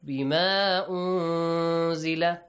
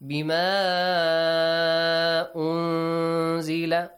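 First: The vowel before unzila is kept short. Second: The vowel before unzila is stretched long. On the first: "or shortly" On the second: "You can read it this way"

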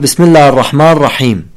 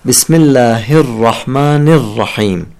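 First: The final sounds of the words are dropped. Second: The final sounds of the words are fully pronounced. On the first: The speaker calls it wrong. "يعني يحذف الحروف الأخيرة من الكلمات" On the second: The speaker calls it right. "هذا الأداء الكامل مهم"

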